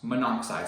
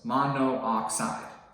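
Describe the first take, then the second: First: The two O vowels merge into one. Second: Two separate O vowels are pronounced in a row. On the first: The speaker calls it right. "I made it easier to pronounce" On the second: The speaker calls it wrong. "we have two O's"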